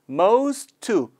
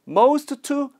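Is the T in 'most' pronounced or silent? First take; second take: silent; pronounced. First: The T at the end of 'most' is silent. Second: The T at the end of 'most' is pronounced. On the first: The speaker calls it right. "the T part is silent here" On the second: The speaker calls it wrong. "most to가 아니라"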